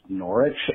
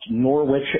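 First: The W in the middle is silent. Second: The W in the middle is pronounced. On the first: The speaker calls it right. "are actually pronounced" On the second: The speaker calls it wrong. "look like they should be pronounced"

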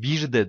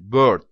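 First: The word is split into two syllables. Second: The word is said as one syllable. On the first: The speaker calls it wrong. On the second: The speaker calls it right.

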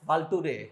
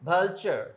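First: The middle consonant is a plain t sound. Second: The middle consonant is a ch sound. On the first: The speaker calls it wrong. "Not ভালটুরে আর ভুলটুরে" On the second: The speaker calls it right. "টি ইউ থাকলে কি হবে? চ"

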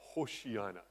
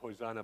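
First: The middle consonant is an 'sh' sound. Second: The middle consonant is a plain 's' sound. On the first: The speaker calls it right. "that's apparently how it should be pronounced" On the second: The speaker calls it wrong. "not Hosanna"

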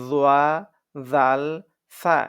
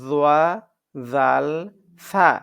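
No difference in how they are said.

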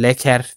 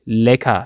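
First: The ending is pronounced with an audible 'er'. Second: The ending is pronounced as an open 'a'. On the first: The speaker calls it wrong. "leker değil" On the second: The speaker calls it right. "E R ile bitenleri A şeklinde okuyorsunuz"

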